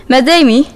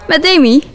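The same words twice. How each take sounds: First: A more serious, guarded phone greeting; girl answering the phone seriously after a strange call. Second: Bright, cheerful phone greeting, pitched higher; cheerful girl picking up her phone. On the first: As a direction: answer carefully this time. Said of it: "een stuk serieuzer dan net". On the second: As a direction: answer the phone happily. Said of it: "Vrolijk neem ik op". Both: Acted.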